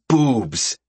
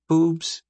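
First: BOOBS said full and big, falling; high, drawn-out falling "Boobs"; emphatic BOOBS. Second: BOOBS said small and high, as a question; meek, questioning Boobs. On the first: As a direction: make "Boobs" sound ample. Contrasts Val's figure with her own. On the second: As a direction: shrink "Boobs" to a doubtful little query. Contrasts her own figure with Val's. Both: Acted.

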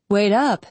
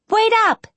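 First: Put-on mildly interested young man's echo. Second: High, loud call to someone ahead. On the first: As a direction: echo her call with understated interest, much less high. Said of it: "said an interested male voice". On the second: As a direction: call after big brother, high and loud. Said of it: "she called". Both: A narrator's reading.

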